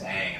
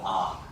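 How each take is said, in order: First: The vowel is a short 'a' sound. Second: The vowel is an open 'ah' sound. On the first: This is how the original show says it. The speaker calls it right. "how they say it in the show" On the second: This is how the live action movie says it. The speaker calls it wrong. "he mispronounced the main character's name"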